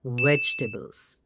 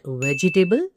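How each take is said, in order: First: "vegetables" squeezed to VEJ-tuh-bls, falling; correct pronunciation. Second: "vegetable" in four beats, ve-ji-tay-ble; mispronunciation demo. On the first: Teacher correcting the error, three-beat "vegetables". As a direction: leave out the middle vowel of "vegetables". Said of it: "it's vegetables". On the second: Teacher warning against the common error, four-beat "vegetable". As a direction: sound every syllable of "vegetable", ending in table. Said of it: "It's not vegetable". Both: Shown as a demonstration.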